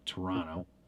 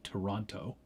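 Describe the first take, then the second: First: The second t is dropped, like Torono. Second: Every t sound in the name is pronounced. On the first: This is how locals say it. "we say Toronto ... T U R R O N O, because that's how we say it" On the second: This is not how locals say it. "We don't say Toronto"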